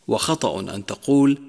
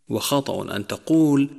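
Both takes have the same delivery.

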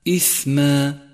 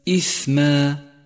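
No difference in how they are said.

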